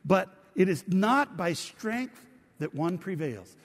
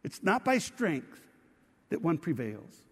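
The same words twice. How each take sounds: First: Reading scripture aloud together. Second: It's not by strength, drawn out slowly and firmly; preacher repeats the key line slowly for the congregation, slow and emphatic; slow, stressed repeat. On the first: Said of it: "Would you read it with me". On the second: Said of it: "a major theme". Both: Shown as a demonstration.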